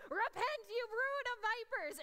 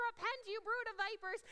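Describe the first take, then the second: First: Loud, high fiery call to repent; booming prophet shout. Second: John the Baptist. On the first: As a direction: thunder it out like John the Baptist. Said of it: "in a voice that I have never heard". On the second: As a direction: roar it like a wild prophet. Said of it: "he kind of acts like John the Baptist". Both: Retold or imitated.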